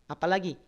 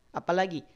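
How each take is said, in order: The two takes are said the same way.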